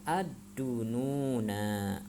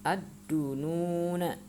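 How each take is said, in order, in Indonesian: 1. Vokal akhir dipanjangkan. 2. Vokal akhir dibaca pendek. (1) "jangan dibaca" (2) "harus dibacanya"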